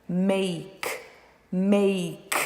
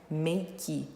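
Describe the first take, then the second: First: "make" said as one syllable, mayk, no final vowel; correct English make. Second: "Make" said as MEH-kee with a final vowel; two syllables, a vowel after the k; wrong Brazilian make. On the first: Teacher modelling the right one-syllable make. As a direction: end cleanly on the k. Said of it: "Uma sílaba apenas". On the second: Teacher imitating how Brazilians say make, softly. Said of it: "muitos brasileiros falam make". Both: Shown as a demonstration.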